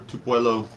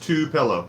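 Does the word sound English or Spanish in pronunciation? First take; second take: Spanish; English. First: The word is said with a Spanish-style pronunciation. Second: The word is said with an English pronunciation. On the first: The speaker calls it wrong. "I always want to say Tupelo" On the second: The speaker calls it right. "Sean, you're saying it's Tupelo"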